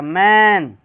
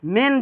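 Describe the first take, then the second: First: "मैन" as "man", stretched and louder; drawn out. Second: "मैन" as "men", short e; quick short vowel. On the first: Teacher separates man from men, drawn-out "मैन". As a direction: pull the vowel of "मैन" long and loud. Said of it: "थोड़ा सा खींच कर पढ़ा जाएगा". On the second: Teacher separates men from man, short "मैन". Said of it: "जल्दी पढ़ा जाएगा". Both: Shown as a demonstration.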